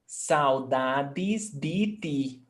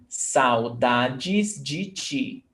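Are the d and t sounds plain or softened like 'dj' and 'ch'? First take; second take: plain; softened. First: The d and t are plain, hard sounds. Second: The d and t sound like 'dj' and 'ch'. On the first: "In some other parts of Brazil" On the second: "How do I pronounce?"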